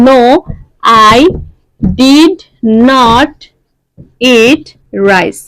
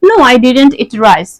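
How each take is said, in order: First: 'Did not' is said as two full words. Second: 'Did not' is shortened to one syllable cluster. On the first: "অনেক সময় ডিড নট বলতে সময় লাগে" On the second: "সংক্ষেপে যদি বলি"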